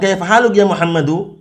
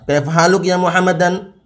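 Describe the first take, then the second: First: The name ends with a plain '-u' sound. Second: The name ends with an '-an' sound. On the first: The speaker calls it right. "kalau mau dilanjutkan kaifa haluk ya Muhammadu, seperti itu" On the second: The speaker calls it wrong.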